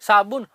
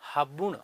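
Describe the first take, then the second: First: The word begins with an s sound. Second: The word begins with an h sound.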